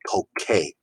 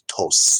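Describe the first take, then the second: First: The middle consonant is a hard k sound. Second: The middle consonant is a soft s sound. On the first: The speaker calls it right. "to keep the K" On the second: The speaker calls it wrong. "it's tose, and that's entirely wrong"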